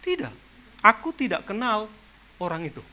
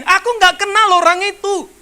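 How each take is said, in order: First: Said in the usual way. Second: "Aku nggak kenal orang itu" shouted higher and louder; loud denial. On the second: Retold or imitated. Preacher re-enacting Peter denying Jesus, loud and higher.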